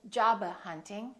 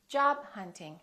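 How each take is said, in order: First: The b is released before the h. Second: The b is held without release. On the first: The speaker calls it wrong. "Don't say" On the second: The speaker calls it right.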